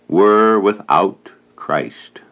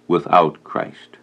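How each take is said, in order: First: "were without Christ" drawn out very slowly, each word weighted; slow it right down and lean on "without Christ"; emphasis on Christ. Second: "Without Christ" repeated lower and slower, a solemn echo; quiet echo. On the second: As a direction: let the words sink in, softly repeated. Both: Shown as a demonstration. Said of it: "We would emphasize the word Christ".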